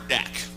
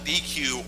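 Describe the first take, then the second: First: The word is said as one syllable, deck. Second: The word is said as two letters, dee-queue. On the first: "A D E C is something you have a barbecue on" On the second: "I call it a D Q"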